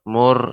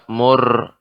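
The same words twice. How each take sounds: First: The r is pronounced light and thin. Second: The r is pronounced heavy and thick. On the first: The speaker calls it wrong. "kurang tebalnya" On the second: The speaker calls it right. "ra dibaca dengan tebal"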